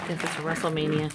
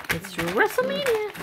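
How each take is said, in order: First: Said in the usual way. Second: "WrestleMania" lifted high like a mock announcer; playful announcing. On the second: Real, not acted. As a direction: announce the puppy brawl for fun.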